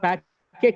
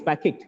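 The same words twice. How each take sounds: First: The stress is on the second syllable. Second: The stress is on the first syllable. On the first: The speaker calls it wrong. "It's not packet" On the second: The speaker calls it right. "it is packet. ... the first syllable is stressed"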